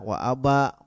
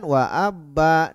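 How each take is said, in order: First: The b sound is short and single. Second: The b sound is doubled and held. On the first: It means father. The speaker calls it wrong. "itu kan salah" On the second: It names a kind of plant. The speaker calls it right. "Harusnya abba"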